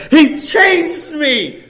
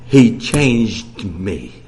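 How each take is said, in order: First: Very slow and louder; preacher echoing with fervor; fervent repeat. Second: Very slow, low, loud; the sister's awed testimony quoted slowly. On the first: Real, not acted. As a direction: savor each word. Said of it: "repeats quote with fervor". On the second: Retold or imitated. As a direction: draw out He changed me with awe. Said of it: "She said".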